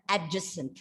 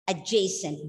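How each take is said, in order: First: The d sound is pronounced before the j. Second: The d sound is silent before the j. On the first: The speaker calls it wrong. "We have all been pronouncing this word as adjacent" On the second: The speaker calls it right. "D is silent, and you bring that diphthong A after J"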